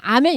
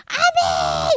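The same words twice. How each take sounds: First: Said in the usual way. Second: High, drawn-out amen; fervent amen. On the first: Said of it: "우리처럼 그냥". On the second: Shown as a demonstration. Teacher showing how the people answered, fervent amen. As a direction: cry amen with all your heart. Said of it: "이렇게 한 거예요".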